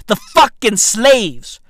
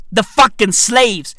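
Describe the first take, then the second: No difference in how they are said.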